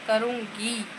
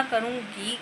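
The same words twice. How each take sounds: First: Slow, deliberate "करूँगी", dropping in volume; emphatic repeat. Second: Said in the usual way. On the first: Real, not acted. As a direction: draw out "करूँगी" as a firm promise.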